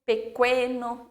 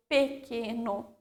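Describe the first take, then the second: First: Slow pequeno as pe-KWE-no; deliberate kw in pequeno; wrongly sounded U. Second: Slow pequeno with a plain k; careful k sound in pequeno, no w; silent U. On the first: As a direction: say "pequeno" with a w after the k. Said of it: "não é essa pronúncia". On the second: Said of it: "formam também um único som". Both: Shown as a demonstration.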